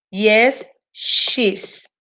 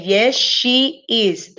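First: She's nearly whispered; wrong example. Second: Very slow, each word separate; slow correct answer. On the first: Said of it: "Esto está incorrecto". (ejemplo incorrecto, casi susurrado) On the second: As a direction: spell out Yes, she is word by word. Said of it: "Tendría que ser". (la respuesta correcta, muy despacio) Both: Shown as a demonstration.

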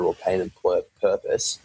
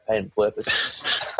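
First: Tripping over "pur-, purpose"; "purpose" fumbled mid-phrase, then corrected; tongue-tied stumble. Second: "pain and purpose" slowly and carefully; slow down to get "pain and purpose" out cleanly; "pain and purpose" drawn out after a stumble; careful tongue-twister retry. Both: Real, not acted. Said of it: "geez, that's a tongue twister".

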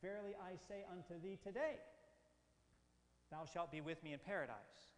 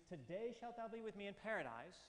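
First: "thee today" kept together, TODAY rising, then a long pause before "thou shalt"; pause after today. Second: TODAY joined straight onto "shalt thou be with me in paradise"; phrased with today first. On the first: Teacher reading a verse with the comma moved, pause after today. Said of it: "which would then read". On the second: Teacher reading a verse with the comma before today, joined phrasing. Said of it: "so that it reads". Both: Shown as a demonstration.

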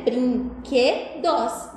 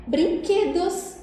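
First: Brinquedos said very slowly, syllable by syllable, falling at the end; split into syllables. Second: Word said again. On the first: Teacher showing children the three syllables, slowly. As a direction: stretch Brinquedos out piece by piece. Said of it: "Essa palavra é dividida em três pedacinhos". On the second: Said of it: "Três sílabas". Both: Shown as a demonstration.

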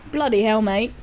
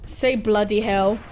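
First: British exclamation. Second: Said in the usual way. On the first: Shown as a demonstration.

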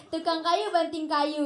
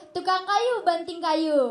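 First: Said in the usual way. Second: "Tukang kayu banting kayu" read slowly, following the punctuation; slow, deliberate re-reading of "Tukang kayu banting kayu"; phrased by punctuation. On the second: Shown as a demonstration. Member re-reads fan's line on spotting punctuation, slowly phrased. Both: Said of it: "Oh, oh, ada tanda bacanya".

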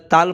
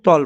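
First: তাল with a long open "taa"; wrong long a. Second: তল with a short heavy "to"; correct short vowel. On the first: Teacher shows the wrong তাল, long "taa". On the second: Teacher gives the correct তল, short "to". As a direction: say তল with no long a. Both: Shown as a demonstration. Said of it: "তাল না পড়ে তল পড়ব".

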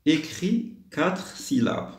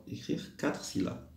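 First: Slow, higher-pitched instruction reading; slow dictation. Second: Said in the usual way. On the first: Shown as a demonstration. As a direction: read it out very slowly, word by word. Teacher reads out the instruction. (lecture lente de consigne)

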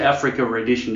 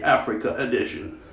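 First: "Africa edition" with no R sound between the words; Africa edition without linking R. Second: "Africa edition" with no R joining the two words; "Africa edition", second word starting on a clean vowel. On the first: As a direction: say "Africa edition" leaving a clean break, no R. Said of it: "Americans don't say Africa edition". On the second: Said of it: "'cause there's no R in the middle". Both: Shown as a demonstration.

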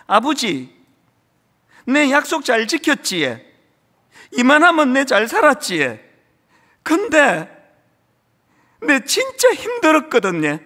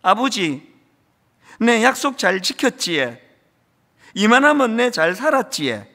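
First: Higher, louder, voice straining with tears in Gyeongsang dialect; a grown son's tearful, rising Gyeongsang confession to his dead father; tearful Gyeongsang plea. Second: Lightly voiced Gyeongsang dialect, mostly recited; quoting the old son's Gyeongsang line with a touch of tearfulness; a hint of a tearful old man in Gyeongsang dialect. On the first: Retold or imitated. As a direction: pour out the old son's hidden pain in Gyeongsang dialect. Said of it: "울면서 이런 이야기를 합니다". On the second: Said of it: "경상도 사투리죠".

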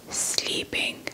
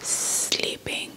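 No difference in how they are said.

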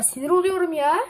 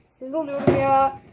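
First: A higher, sharper burst of real annoyance; real frustration. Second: Muttered real annoyance at the camera; real irritation. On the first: Kid losing patience with the camera, exasperated outburst. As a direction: complain out loud, fed up. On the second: Kid fed up with the camera, irritated grumble. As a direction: let the frustration slip out, not loud. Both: Real, not acted.

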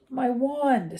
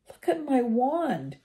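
First: Shaky voice. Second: Slow, higher, a touch shaky; mildly stunned over the snapped wand. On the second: Ron shows Harry his broken wand, a touch shaky. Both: A narrator's reading. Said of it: "said Ron in a shaky voice".

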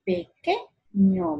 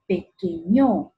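First: "Pequeño" slow, QUE high and stressed; acento correcto en QUE. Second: "pequeño" wrongly stressed on the final ÑO; acento equivocado. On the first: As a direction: land on QUE in pe-QUE-ño, then drop. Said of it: "la que es la sílaba tónica". ("Pequeño" con fuerza en QUE) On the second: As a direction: push the last syllable, peque-ÑO. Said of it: "o digo pequeño". ("pequeño" con fuerza errónea en ÑO) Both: Shown as a demonstration.

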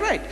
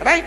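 First: "right" as a short falling answer; quoted agreement. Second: "right" as a short rising question; checking question. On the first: Opponent agreeing to the preacher's step, confirming. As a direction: answer "right" briskly, closing the point. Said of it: "He said". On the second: Preacher checking each step with his opponent, questioning. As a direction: toss out "right" to get agreement. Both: Retold or imitated.

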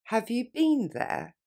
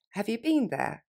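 First: Slow and clear for the learner; slowly. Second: Faster. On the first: Teacher modelling for students, slow. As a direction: have you been there said slowly. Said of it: "Plus lentement". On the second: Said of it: "Et plus rapidement". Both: Shown as a demonstration.

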